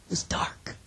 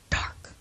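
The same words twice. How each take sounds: First: The word dark dropped soft and low; hushed stress on dark. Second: Whispered echo. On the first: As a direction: say was dark quietly, landing on dark. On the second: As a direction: whisper the word Dark, breathy and hushed. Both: Shown as a demonstration.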